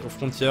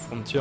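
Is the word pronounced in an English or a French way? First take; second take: French; English. First: The word is pronounced with French sounds. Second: The word is pronounced with English sounds. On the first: The speaker calls it wrong. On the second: The speaker calls it right.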